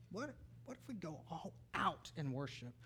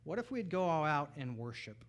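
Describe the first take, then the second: First: Soft, with a weighty pause before "out"; hushed repetition. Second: Said in the usual way. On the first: Real, not acted. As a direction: drop the volume, then set "out" apart. Repeats question softly for effect.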